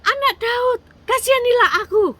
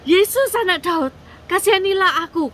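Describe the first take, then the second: First: Very high, full-out acted yell; insistent, loud high-pitched plea; even louder shout. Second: High, loud acted cry for mercy; pleading yell, pitched well up; loud shout. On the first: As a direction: shout for mercy at the top of the voice. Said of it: "dia teriak lagi lebih keras". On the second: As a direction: call out hard to someone passing by. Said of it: "dia teriak dengan keras". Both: A narrator's reading.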